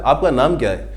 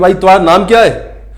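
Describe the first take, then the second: First: It is asked in an affectionate tone. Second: It is asked in an angry tone.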